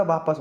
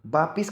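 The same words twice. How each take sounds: First: वापस with short "a" in second syllable; correct pronunciation. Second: वापिस with "i" in second syllable; wrong pronunciation. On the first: Teacher corrects it for students, careful pronunciation. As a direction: say वापस as "vaa-pas". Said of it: "वापस होता है". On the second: Teacher shows students a common error, mispronounced. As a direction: say वापिस as "vaa-pis". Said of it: "वापिस कुछ नहीं होता". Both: Shown as a demonstration.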